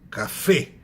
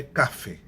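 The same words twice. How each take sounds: First: Café punched louder on the final fé; stress on last syllable. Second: Café said as CA-fe, stress moved to ca; wrong first-syllable stress. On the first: Teacher giving an example, "café" stressed on fé. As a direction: land hard on the end of "café". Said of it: "A última sílaba que é a tônica". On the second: Teacher showing the mistake, "café" stressed on ca. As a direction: hit the "ca" of "café", drop the end. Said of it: "não é café". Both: Shown as a demonstration.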